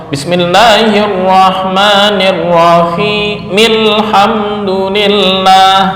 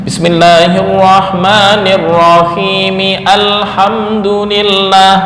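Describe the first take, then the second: No difference in how they are said.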